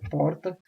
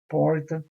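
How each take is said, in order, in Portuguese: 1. É falada com o r do Rio de Janeiro. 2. É falada com o r do interior de São Paulo. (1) "Já no Rio de Janeiro é" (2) "no interior de São Paulo, normalmente falam"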